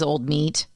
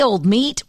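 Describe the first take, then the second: First: It is said in a disgusted, dismissive tone. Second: It is said in a warm, affectionate tone. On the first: The person is unappealing. "Ugh, he was old meat" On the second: The person is a welcome friend. "an affectionately"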